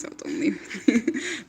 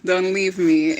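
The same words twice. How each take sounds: First: Drawn-out, softer mock plea; playful plea. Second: Laughing through a playful plea. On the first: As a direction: stretch it out slowly, begging viewers to stay. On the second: Pretend. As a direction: giggle as you beg them not to go.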